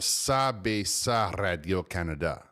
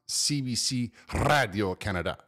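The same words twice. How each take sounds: First: The whole name is pronounced in French. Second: English letters, then the rest pronounced in French. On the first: The speaker calls it right. "or CBC Radio Canada" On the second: The speaker calls it wrong. "It's not CBC Radio Canada"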